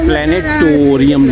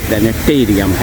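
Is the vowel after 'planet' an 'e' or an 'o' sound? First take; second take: o sound; e sound. First: The syllable after 'planet' has an 'o' vowel. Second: The syllable after 'planet' has an 'e' vowel. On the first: The speaker calls it wrong. "प्लेनेटोरियम लोग बोलते हैं" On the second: The speaker calls it right. "जबकि ये प्लेनेटेरियम है"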